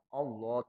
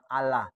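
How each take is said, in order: First: The L sound is thick and heavy. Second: The L sound is thin and light. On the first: The speaker calls it right. "Allah tebel" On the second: The speaker calls it wrong. "jangan Allah"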